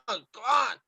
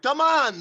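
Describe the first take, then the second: First: Said in the usual way. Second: High, loud coaching call; coach shout. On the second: Acted. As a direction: bark it like a coach. Coaching a volleyball drill.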